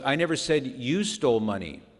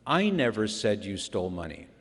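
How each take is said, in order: First: The stress is on the word you. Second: The stress is on the word I.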